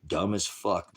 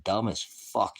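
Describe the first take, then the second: First: Said in the usual way. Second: Slow, each word of "dumb as fuck" stressed, "dumb" hardest; slow stressed correction. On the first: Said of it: "I didn't say fucking". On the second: Real, not acted. Correcting a misheard word for chat, slow and stressed. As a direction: spell out "dumb as fuck" slowly, leaning on "dumb". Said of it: "I didn't say fucking, I said".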